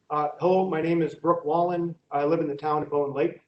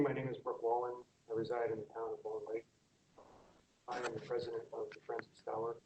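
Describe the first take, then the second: First: Louder, projecting for the room; speaking up. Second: Soft, barely audible; speaking too softly; too quiet. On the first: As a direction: raise the voice so all hear. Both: Real, not acted. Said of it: "Could you speak up, please? We can't hear you".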